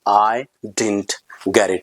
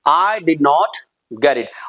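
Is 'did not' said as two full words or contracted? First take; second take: contracted; full. First: Did not is contracted into one short word. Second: Did not is said as two full words. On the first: "डिड नॉट को डिडंट" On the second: "negative आप sentence बोल रहे हैं"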